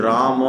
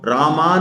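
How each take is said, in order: First: राम closing on म with at most a light a; short final vowel. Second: रामा with a full आ after म; wrong रामा, last vowel drawn out; long final aa. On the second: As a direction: open the end of रामा into a long aa. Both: Shown as a demonstration. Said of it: "रामा नहीं बोल रहे हैं".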